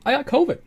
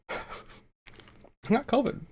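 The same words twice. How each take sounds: First: Said in the usual way. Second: High slow laughing repeat. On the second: Real, not acted. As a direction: laugh it out slowly.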